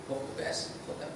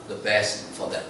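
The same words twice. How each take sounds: First: Whispered echo. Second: Said in the usual way. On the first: Shown as a demonstration. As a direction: whisper "Hope the best for them" as a hushed repeat. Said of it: "whispered repeat". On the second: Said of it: "repeated for emphasis".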